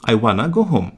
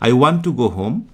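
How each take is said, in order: First: Want to is blended into one quick wanna. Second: Want to is said as two full words. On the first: This is the quicker informal spoken form. "একটু দ্রুত বলার জন্য ওয়ান টু এর contraction" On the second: This is the ordinary form. "এটা normally"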